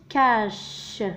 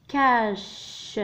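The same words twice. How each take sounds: First: Said in the usual way. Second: كاش stretched out very slowly; very slow teaching read of كاش; slow spelled-out word. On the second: Shown as a demonstration. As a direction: draw كاش out for the class.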